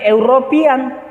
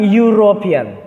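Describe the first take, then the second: First: It starts with a plain vowel sound. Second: It starts with a y sound. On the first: The speaker calls it wrong. "bukan European" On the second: The speaker calls it right. "tetapi European"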